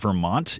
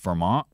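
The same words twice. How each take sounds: First: The T is fully pronounced. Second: The T is replaced by a glottal stop. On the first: "is not Vermont" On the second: "It's Vermont"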